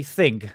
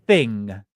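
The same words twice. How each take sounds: First: THING said as "think"; THING with a Bristolian final K; K ending on THING. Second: Said in the usual way. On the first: Shown as a demonstration. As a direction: put a hard K on the end of THING. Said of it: "like, a K at the end". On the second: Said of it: "I say thing".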